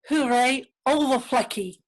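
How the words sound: The name is said with Dutch sounds. "is pronounced"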